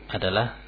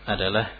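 The two takes are said the same way.

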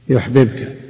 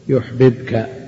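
Both takes have the same delivery.

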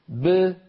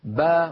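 First: The b ends with a short echoing bounce. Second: The b is followed by an open a vowel. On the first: "خرجت باء مقلقلة" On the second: "تخرج باء مفتوحة"

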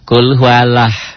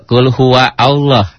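First: Huwa runs straight into Allah without a break. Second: Allah starts fresh after huwa, said separately. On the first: "Ada orang yang baca" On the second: "Ada juga"

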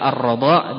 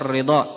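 First: The vowel after the r is a. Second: The vowel after the r is i. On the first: "bifathir ra'" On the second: "wa kasriha"

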